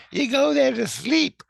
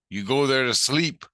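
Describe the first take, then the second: First: Very high, loud put-on voice; Tina. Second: Raised, emphatic explanation; explaining Jesus Christ. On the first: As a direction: echo it in a piercingly high mimicking voice. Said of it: "Tina goes". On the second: Retold or imitated. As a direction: explain loudly, lifting the last word. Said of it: "He goes".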